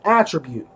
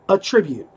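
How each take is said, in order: First: The stress is on the first syllable. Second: The stress is on the second syllable. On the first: It names a quality someone has. The speaker calls it right. "if you have strength, that is an attribute" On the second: It sounds like crediting something to a cause. The speaker calls it wrong. "he kept saying, attribute"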